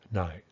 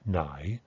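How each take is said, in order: First: The word carries a simple, reduced tone. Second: The word carries a complex, changing tone. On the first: This is the everyday conversational shortcut. "is going to become this simple tone" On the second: This is the careful, unreduced form. "This this complex tone"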